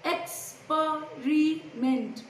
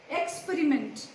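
First: Experiment drawn out in four separate beats; syllable by syllable. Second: Said in the usual way. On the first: Shown as a demonstration. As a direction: say Experiment very slowly, pausing between syllables. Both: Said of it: "Four syllables".

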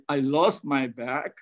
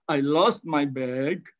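First: "bag" ending in an unvoiced k, like "back"; learner's mispronunciation. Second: "bag" ending in a clear voiced g; correct English. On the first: Lecturer imitating students who turn "bag" into "back", final k. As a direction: say "I lost my bag" with "bag" closing on a k sound, as "bak". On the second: Lecturer modelling the correct "bag" for students, final g voiced. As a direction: say "I lost my bag" with a full hard g at the end of "bag". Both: Shown as a demonstration.

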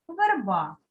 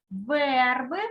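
First: Верба stressed on the final А, falling; stress on last syllable. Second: Верби stressed on Е, rising at the end; stress on first syllable. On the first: Teacher reads word pairs, верба stressed on final А. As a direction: put the beat on А in верба. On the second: Teacher reads word pairs, верби stressed on Е. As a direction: put the beat on Е in верби. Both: Shown as a demonstration. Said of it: "став наголошеним голосний".

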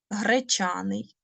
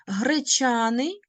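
First: Гречаний whispered slowly, no voice. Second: Slow demo word. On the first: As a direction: breathe the word Гречаний like a secret to the class. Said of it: "teacher repeats word". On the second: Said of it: "teacher demonstrates the word". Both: Shown as a demonstration.

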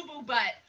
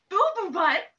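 First: Said in the usual way. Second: Gasping, loud shocked question. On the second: Acted. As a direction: gasp in mock horror.

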